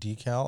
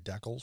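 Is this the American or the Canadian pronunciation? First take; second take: American; Canadian. First: The word is said the American way. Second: The word is said the Canadian way. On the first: "I've noticed in the U.S. they say decal" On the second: "up here in Canada we tend to say decals"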